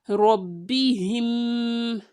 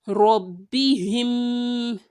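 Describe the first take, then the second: Both takes have the same delivery.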